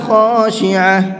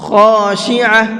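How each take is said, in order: No difference in how they are said.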